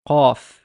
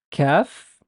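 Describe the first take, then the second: First: "qaf" with a uvular q and backed a; velarized qaf. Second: "Kaf" with a front k and bright a. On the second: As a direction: keep "Kaf" forward. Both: Shown as a demonstration. Teacher contrasts kaf with qaf. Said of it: "when we compare kaf and qaf".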